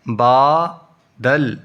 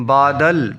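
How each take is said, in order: First: "با دل" as two separate syllables. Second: Said in the usual way. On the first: Shown as a demonstration. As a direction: clear gap between "با" and "دل". Teacher splits, then joins word.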